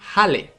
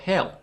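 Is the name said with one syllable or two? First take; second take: two; one. First: It has two syllables with the vowels of hat and elephant. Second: It is one syllable, said the usual English way. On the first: This is how the name is read under the Farsi vowel rule. "we're gonna pronounce this Hale" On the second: This is how the name is said in English. "instead of Hell in English"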